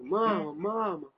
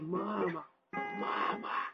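First: The call is shouted at full loudness. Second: The call is noticeably quieter and softer.

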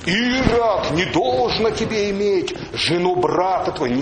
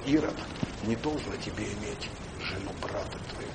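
First: The rebuke is spoken in a harsh, stern tone. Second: The rebuke is spoken in a gentle, meek tone. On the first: The rebuke condemns the listener. The speaker calls it wrong. "неправильно всегда ставят вот этот вот как бы момент" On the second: The rebuke comes from love and humility. The speaker calls it right. "с кротостью, смирением говорил, с любовью"

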